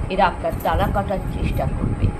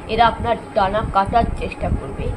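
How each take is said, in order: Both takes have the same delivery.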